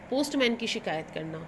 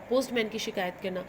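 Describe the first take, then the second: No difference in how they are said.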